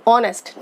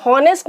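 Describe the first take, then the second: First: ऑनेस्ट starting straight on the O vowel; silent H. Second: हॉनेस्ट with an audible H at the start; H sounded. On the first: Teacher showing students the correct word, ऑनेस्ट with silent H. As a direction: say ऑनेस्ट with no H sound at all. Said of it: "एच को हम नहीं बोलते हैं, ओ बोलते हैं". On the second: Teacher showing students the mistake, हॉनेस्ट with the H pronounced. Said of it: "हम हॉनेस्ट नहीं बोलते हैं". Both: Shown as a demonstration.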